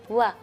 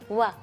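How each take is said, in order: Both takes have the same delivery.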